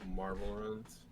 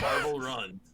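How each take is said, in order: First: It is said flatly, without much energy. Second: It is said with lots of enthusiasm.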